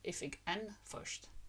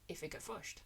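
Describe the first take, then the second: First: An N sound is pronounced before the last word. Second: The N sound drops out before the last word. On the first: "You want to say when you see it written" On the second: "what you hear very frequently"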